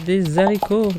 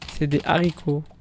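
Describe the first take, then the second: First: A z sound links des to haricots. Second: No z sound links des to haricots. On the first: The speaker calls it wrong. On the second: The speaker calls it right.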